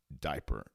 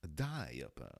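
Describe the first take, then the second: First: Said in the usual way. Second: "diaper" with a drawn-out, emphasized first syllable; old-fashioned emphasis. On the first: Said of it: "Diaper said it now". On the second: Shown as a demonstration. Showing how back then they said it, "diaper" emphasized on DI. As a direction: lean hard on the start of "diaper". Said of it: "they would emphasize the diaper".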